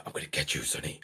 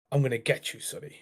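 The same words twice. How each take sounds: First: Low, menacing whisper; dead menacing. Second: Mildly menacing, name dropped to a whisper. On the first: Unseen voice threatening a child at bedtime, menacing whisper. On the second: Unseen voice threatening a child at bedtime, quietly menacing. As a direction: start level, then whisper the name. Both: Retold or imitated. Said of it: "Like, dead menacing".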